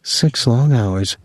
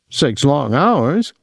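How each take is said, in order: First: "Six long hours" slowly, with a gentle smile; slow, understated fond tease on "Six long hours"; smiling echo. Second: SIX LONG HOURS drawn out slowly and higher; slow, higher mock complaint on "Six long hours"; playful lament. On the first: A narrator's reading. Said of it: "she said, smiling". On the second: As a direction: stretch "Six long hours" high, lifting at the end. Willie's playful lament while kissing.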